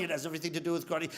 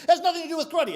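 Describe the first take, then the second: First: Low, soft, fast rebuttal; unmoved master, quick and low; sensei. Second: High, escalating contradiction; complaining student. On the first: Sensei contradicting his student, low quick reply. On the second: Student arguing with his sensei, high insistent protest. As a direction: protest harder, pitched up. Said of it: "he complains to Sensei". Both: Acted.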